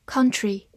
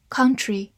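No difference in how they are said.

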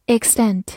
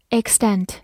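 The two takes are said the same way.

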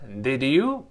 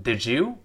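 First: "did you" as two separate words; unlinked words. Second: "did you" run together as "did-joo"; linked pronunciation. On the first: Teacher shows words before linking, unlinked did you. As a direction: keep the d and y of did you apart. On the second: Teacher shows linking, did you said as did-joo. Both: Shown as a demonstration. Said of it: "did you and did you".

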